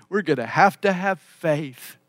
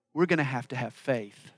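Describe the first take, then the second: First: Fuller voice, leaning on "have to have faith"; emphatic repeat. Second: Low, soft understatement; understated. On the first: Preacher drives home "faith" to congregation, emphatic. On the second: Preacher admits to congregation the need for faith, understated. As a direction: say it quietly and matter-of-factly. Repeats the line for emphasis. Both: Real, not acted.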